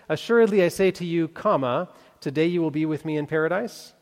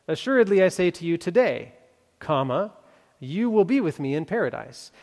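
First: The break comes before the word today. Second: The break comes after the word today.

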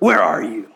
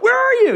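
First: It is called out sternly and angrily. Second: It is called out frantically and anxiously. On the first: A stern father is scolding in anger. "a stern, angry father calling out in anger" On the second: A worried parent has lost their child. "the noise of a frantic parent that somehow misplaced their kids"

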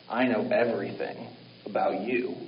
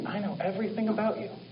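First: It sounds sinister and intimidating. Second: It sounds warm and loving.

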